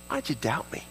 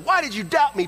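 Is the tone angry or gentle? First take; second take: gentle; angry. First: It is said in a kind, gentle tone. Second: It is said in an angry, berating tone.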